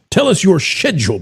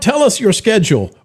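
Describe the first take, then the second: First: It is said in a British accent. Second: It is said in an American accent.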